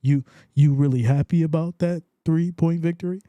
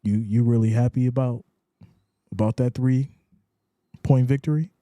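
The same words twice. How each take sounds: First: Louder teasing disbelief, stretched out; hammed-up skeptical ribbing; mock incredulous question. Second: Mock incredulous question. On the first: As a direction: needle him about the narrow win. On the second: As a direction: tease him about the narrow win. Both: Shown as a demonstration. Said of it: "you gotta say it like that".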